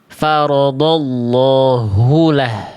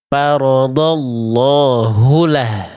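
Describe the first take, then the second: The two takes are said the same way.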